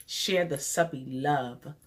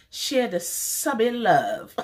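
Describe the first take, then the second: First: Said in the usual way. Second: High, slow sing-song; sing-song slogan. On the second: Real, not acted. She sings her slogan to viewers, high and slow. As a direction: draw out the slogan like a little tune.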